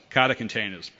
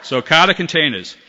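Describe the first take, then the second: First: Boston accent, Kata containers. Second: Laughing at himself through Kata containers. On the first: Shown as a demonstration. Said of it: "great one for a Boston accent". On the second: Real, not acted. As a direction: laugh it out, higher and louder. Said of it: "why do I do this".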